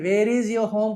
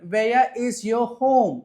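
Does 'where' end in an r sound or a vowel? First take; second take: r sound; vowel. First: The first word ends with an r sound. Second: The first word ends with a vowel, no r. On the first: The speaker calls it wrong. "కాదు" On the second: The speaker calls it right. "ఇలా చెప్పాలండి"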